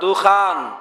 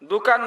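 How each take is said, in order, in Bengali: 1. মাঝের ব্যঞ্জনটি মহাপ্রাণ kh। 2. মাঝের ব্যঞ্জনটি অল্পপ্রাণ k।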